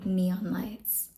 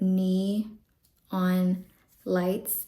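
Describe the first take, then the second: First: It is said quickly, words run together. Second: It is said slowly, as separate words.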